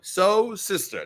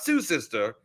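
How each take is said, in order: First: The first word rhymes with 'go'. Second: The first word rhymes with 'blue'. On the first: The speaker calls it right. "the correct pronunciation" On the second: The speaker calls it wrong. "not Sue sister"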